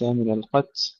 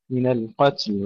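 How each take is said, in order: First: القتل cut off after ت, the ل dropped; lost final ل. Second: القتل with whispered ت and audible final ل; correct القتل. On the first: Teacher showing the mistake, القتل without its ل. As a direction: stop القتل on a puffed ت, swallowing the ل. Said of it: "وليس". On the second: Teacher showing the right way, القتل with full final ل. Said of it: "وليس من القتل". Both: Shown as a demonstration.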